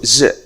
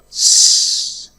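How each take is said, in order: First: Only a voiced z sound is said. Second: Only a voiceless s sound is said. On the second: "The first one is s"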